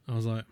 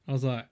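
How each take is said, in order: Both takes have the same delivery.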